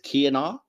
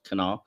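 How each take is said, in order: First: The word begins with a 'kya' sound. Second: The word begins with a plain 'ka' sound. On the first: This is how the name was said in this one episode. "the pronunciation here is Kianar" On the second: This is how the name was said in later episodes. "later appearances, as I said, pronounced Kanar"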